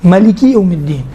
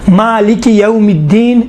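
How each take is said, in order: First: "ملک یوم الدین" with a quick first vowel; short-a reading. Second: Slow "مالک یوم الدین" with long first vowel; long-a reading. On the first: Teacher reciting the alternative qira'at, short first vowel. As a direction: say "ملک" as ma-li-ki, not maa-li-ki. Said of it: "ملکی بھی آیا ہے". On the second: Teacher reciting the preferred qira'at slowly, long vowel. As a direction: draw out "مالک" as maa-li-ki. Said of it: "مالک یوم الدین بہتر ہے". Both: Shown as a demonstration.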